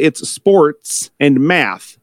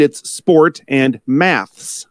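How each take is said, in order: First: "sports and math" said slowly, each word stretched; American "sports and math". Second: "sport and maths" said slowly, each word stretched; British "sport and maths". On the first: Contrasting American usage, slow and deliberate. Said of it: "in America". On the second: Contrasting British usage, slow and deliberate. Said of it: "In England". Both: Shown as a demonstration.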